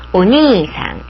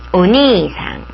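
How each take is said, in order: No difference in how they are said.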